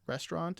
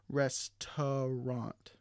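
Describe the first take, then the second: First: The middle vowel is dropped from the word. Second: The middle vowel is fully pronounced in the word. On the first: "the sounds in brackets aren't um, are de-stressed or omitted" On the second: "instead of"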